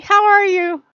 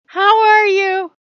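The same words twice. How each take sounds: First: High, loud cat asking how are you; needy kitten, quick and bright; cat voice, much higher and louder, quick; attention-seeking cat voice. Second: Very high, loud and slow how are you; cat voice, much higher, louder and slowed; slow drawn-out cat voice. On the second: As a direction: stretch it out like a begging kitten. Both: Pretend. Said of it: "being like".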